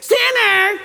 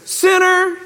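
First: High laughing caricature of a yell; mock harsh yell. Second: Judge yelling. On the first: Preacher mocking a harsh judge's yell. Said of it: "He probably didn't say". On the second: Retold or imitated. Judge shouting at the competitor. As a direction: shout the verdict across the range. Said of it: "He would yell back".

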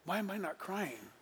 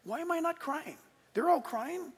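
First: Softer, inward, puzzled question; quiet self-doubt. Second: Higher, pleading why am I not crying; pleading question. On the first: Preacher retelling his doubt at the altar call, quietly inward. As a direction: ask it under your breath to yourself. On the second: Preacher retelling his confusion to the congregation, higher and pleading. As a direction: push it up in bewildered pleading. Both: Retold or imitated. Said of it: "No, I'm serious".

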